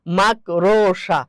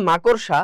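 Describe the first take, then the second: First: মাকড়সা dragged very slowly as "maak-rooo-shaa"; drawn-out mispronunciation. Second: মাকড়সা said as "ma-kor-sha", o before the r; correct pronunciation. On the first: Teacher showing students the common slip, মাকড়সা slowly mispronounced "mak-ro-sha". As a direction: stretch out the wrong মাকড়সা, syllable by syllable, "mak-ro-sha". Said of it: "কি উচ্চারণ করি বলেন তো দেখি". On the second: Teacher correcting students' common slip, মাকড়সা pronounced properly as "ma-kor-sha". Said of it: "উচ্চারণ হবে মাকড়সা". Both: Shown as a demonstration.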